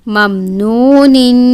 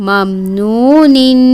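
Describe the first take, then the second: No difference in how they are said.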